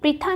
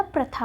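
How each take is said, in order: First: प्रथा with "pri" at the start; प्रथा, i sound after pr; wrong form shown. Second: प्रथा with "pra" at the start; प्रथा, short a after pr; correct form shown. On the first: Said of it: "प्रथा नहीं होता". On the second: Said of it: "प्रथा होता है". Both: Shown as a demonstration.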